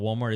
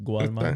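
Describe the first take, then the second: First: It is said with a plain American accent. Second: It is said with a Cuban-Spanish accent. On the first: "instead of Walmart" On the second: "it's Gualmar"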